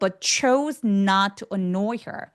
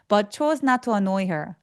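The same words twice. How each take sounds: First: The consonants are pressed firmly and stickily. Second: The consonants are pronounced lightly and weakly. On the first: The speaker calls it right. "이 끈적거리게 소리를 내줘야" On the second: The speaker calls it wrong. "아니고"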